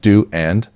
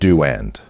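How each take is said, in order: First: The words are said separately without a W. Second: The words are linked with a W sound. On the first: The speaker calls it wrong. "if I say it slowly" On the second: The speaker calls it right. "but she said do and"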